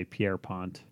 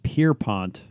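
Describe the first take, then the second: First: "Pierpont" as pee-AIR-pont; pee-AIR pronunciation. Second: "Pierpont" starting like a boat pier; PIER pronunciation. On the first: Co-host allowing the reporter's version, pee-AIR pronunciation. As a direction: say "Pierpont" with a French-style Pierre at the front. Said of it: "I could see why you'd say". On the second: Co-host giving the version he expected, PIER pronunciation. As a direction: say "Pierpont" as two syllables, PEER-pont. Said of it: "I always thought it was pronounced". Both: Shown as a demonstration.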